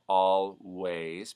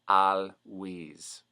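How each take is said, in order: First: The vowel is an A sound. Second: The vowel is an E sound.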